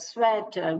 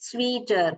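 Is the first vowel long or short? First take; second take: short; long. First: The first vowel is short, like 'e' in 'bed'. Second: The first vowel is long, like 'ee' in 'see'. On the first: The speaker calls it right. "eh sound வருது" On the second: The speaker calls it wrong. "We don't say it as sweeter"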